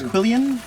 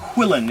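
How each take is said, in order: First: The word ends in a longer '-ian' sound. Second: The word ends in a short '-in' sound. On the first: "I thought it was quillian" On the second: "we call that a quillin"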